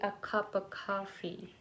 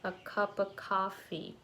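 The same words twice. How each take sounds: First: It is said with American English vowels. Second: The same.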